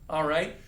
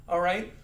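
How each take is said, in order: No difference in how they are said.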